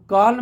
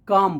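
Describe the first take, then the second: First: The L sound is pronounced in the word. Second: The L sound is left silent in the word. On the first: The speaker calls it wrong. "कॉल्म नहीं" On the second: The speaker calls it right. "काम बोलते हैं"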